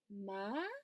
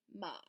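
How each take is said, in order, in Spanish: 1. El tono sube como en una pregunta. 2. El tono es bajo y grave. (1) "este es como si preguntaras" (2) "es grave, se siente en el pecho"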